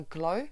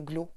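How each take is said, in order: First: Glow with a gliding English vowel; diphthong in glow. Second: Glow with a single French-style O; pure O in glow. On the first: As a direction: let the vowel of "glow" glide, English-style. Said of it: "qui me disait qu'on ne disait pas glow". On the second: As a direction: keep the vowel of "glow" as one unglided O. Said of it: "mais qu'on disait glow". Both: Retold or imitated.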